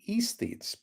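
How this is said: It is said the British way.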